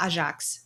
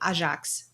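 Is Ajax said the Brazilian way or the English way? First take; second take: Brazilian; Brazilian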